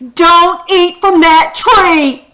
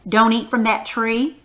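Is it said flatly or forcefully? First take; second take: forcefully; flatly. First: It is said forcefully, as a strong command. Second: It is said flatly, without strong feeling.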